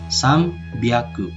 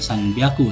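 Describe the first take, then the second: First: The nasal before b is said as m. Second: The nasal before b is said as n. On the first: The speaker calls it right. "tapi sambiaku" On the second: The speaker calls it wrong. "Bukan sanbiaku"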